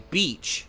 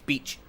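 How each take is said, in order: First: The vowel is long, held for double length. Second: The vowel is short, sounding like bitch. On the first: The speaker calls it right. "you have to say beach, which is a double length vowel" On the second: The speaker calls it wrong. "they'll just say beach, which to us is bitch"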